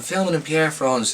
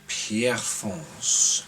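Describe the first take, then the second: First: Said in the usual way. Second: Pierrefonds drawn out slowly in a French accent. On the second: Shown as a demonstration. Reading out the filming question, slow French accent on Pierrefonds. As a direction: stretch out Pierrefonds the way a French speaker would. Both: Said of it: "That's my French accent".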